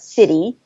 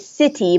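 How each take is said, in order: First: The middle consonant sounds like a D. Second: The middle consonant is a clear T. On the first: The speaker calls it right. "changing that T to a D sound" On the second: The speaker calls it wrong. "we don't say"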